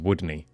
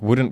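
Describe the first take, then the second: First: It ends with a Scottish 'nae' sound. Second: It ends with a standard 'n't' contraction. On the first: "we replace them with N A E" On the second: "instead of doing contractions"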